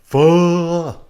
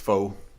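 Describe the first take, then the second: First: The vowel is a drawn-out 'oo' cry. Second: The vowel is 'oh', rhyming with 'foe'. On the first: "you pronounce it like that old rage comic guy" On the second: "It's pronounced faux"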